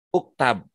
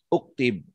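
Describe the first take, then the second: First: The second vowel is 'a'. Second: The second vowel is 'i'. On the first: "uktub nggak bisa dibaca uktab"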